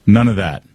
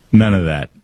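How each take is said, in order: Both takes have the same delivery.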